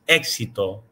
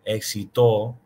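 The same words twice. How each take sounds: First: The stress falls on the first syllable. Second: The stress falls on a later syllable. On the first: The speaker calls it right. "the accent's in the first part of the word" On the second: The speaker calls it wrong. "not éxito"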